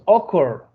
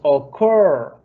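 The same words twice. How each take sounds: First: The stress is on the first syllable. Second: The stress is on the last syllable. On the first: The speaker calls it wrong. "No decimos occur" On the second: The speaker calls it right. "decimos occur, está al final"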